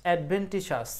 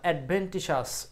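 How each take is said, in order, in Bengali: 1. শেষের অক্ষরগুলো 'sh' ধ্বনি দিয়ে বলা হয়। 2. শেষের অক্ষরগুলো 'sh' ধ্বনি দিয়ে বলা হয়।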